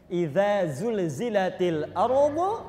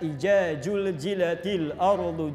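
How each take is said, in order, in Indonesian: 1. Konsonannya diucapkan sebagai bunyi z. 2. Konsonannya diucapkan sebagai bunyi j.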